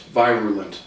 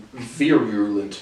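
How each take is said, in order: First: "virulent" said with a long i, VYE-ruh-lent; long-i pronunciation. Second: "virulent" said slowly with a short i, VEER-uh-lent; short-i pronunciation. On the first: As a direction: start "virulent" like the word "vie". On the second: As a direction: try "virulent" with the first vowel as in "ear". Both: Shown as a demonstration. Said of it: "not confident on the pronunciation".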